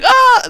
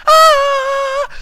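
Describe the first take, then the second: First: Quick high squawk, louder, imitating the rocker; imitated rock-star squawk; rocky yelp. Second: Short, much higher, louder squawk; sudden high yelp out of nowhere. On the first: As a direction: repeat the rock singer's shriek. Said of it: "it's kind of a rocky noise". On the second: Acted. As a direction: let out a rocky-style shriek. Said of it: "I don't know why I did that either".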